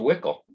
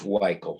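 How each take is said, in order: First: The name rhymes with nickel. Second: The name does not rhyme with nickel. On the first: The speaker calls it wrong. "it rhymes with nickel" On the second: The speaker calls it right. "I confirmed with Dennis by telephone this morning that it's Weichel"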